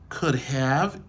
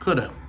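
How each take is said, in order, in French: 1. Les deux mots sont prononcés en entier, sans réduction. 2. Le have est réduit à presque rien. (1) "Au lieu yo dit could have" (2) "une manière qui est plus rapide"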